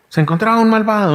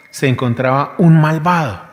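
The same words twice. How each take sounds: First: "Se encontraba un malvado" said higher and faster, with the stress on "un malvado"; emphatic repeat. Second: Said in the usual way. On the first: Shown as a demonstration. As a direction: hit "un malvado" hard. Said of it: "donde dice que se encontraba un malvado". ("Se encontraba un malvado" con énfasis en "un malvado", más agudo)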